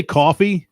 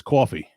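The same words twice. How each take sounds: First: Coffee said kʰɔfi in his usual Long Island way; coffee said his usual way, aw vowel; his own coffee. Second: Coffee with a broad New York cawfee vowel; coffee said the heavy New York way, cawfee. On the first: Showing listeners how he normally says coffee. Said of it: "Say coffee". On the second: Showing the accent that comes out when he is angry, cawfee. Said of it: "if I'm drunk, lazy, or angry". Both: Shown as a demonstration.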